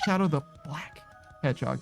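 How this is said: Black is set apart and emphasized within the phrase.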